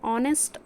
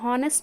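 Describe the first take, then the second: First: The word begins with a vowel sound. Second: The word begins with an h sound. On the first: The speaker calls it right. "ಆನೆಸ್ಟ್ ಅಂತ ಪ್ರನೌನ್ಸ್ ಮಾಡ್ತೀವಿ" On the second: The speaker calls it wrong. "ಇಲ್ಲಿ ನಾವು ಇದನ್ನು ಹಾನೆಸ್ಟ್ ಅಂತ ಪ್ರನೌನ್ಸ್ ಮಾಡೋದಿಲ್ಲ"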